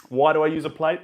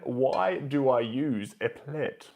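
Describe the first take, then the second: First: Louder, lively echo of the question; bright repeat. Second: Said in the usual way. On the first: Real, not acted. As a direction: bounce the question back with energy.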